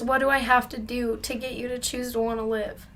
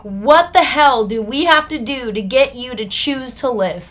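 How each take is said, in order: First: Higher voice, no shouting; earnest appeal. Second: Loud, higher, emphatic demand; exasperated outburst. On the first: Officer sitting down to reach his client, retold earnest appeal. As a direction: plead sincerely, the outburst now spent. Same question softened after he sat down. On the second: Officer banging the desk at his relapsed client, retold exasperated outburst. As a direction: imitate a fed-up officer exploding at you. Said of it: "banged his hands on the desks". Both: Retold or imitated.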